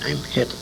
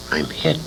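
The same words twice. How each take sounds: The two takes are said the same way.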